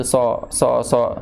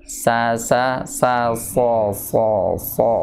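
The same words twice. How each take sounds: First: So said without raising the tongue root; wrong so demo. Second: So with the tongue root raised; correct sad drill. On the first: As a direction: imitate a learner's flat so. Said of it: "bukan pangkal lidah yang naik". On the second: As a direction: model the right so. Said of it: "si pangkal lidahnya naik". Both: Shown as a demonstration.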